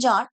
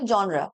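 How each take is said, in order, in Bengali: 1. এটা এক সিলেবলে বলা হয়, 'jar' এর মতো। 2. এটা দুই সিলেবলে বলা হয়, 'zhon-ra' এর মতো। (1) "এটা অনেকে বলে জার" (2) "আসল উচ্চারণটা জনরা"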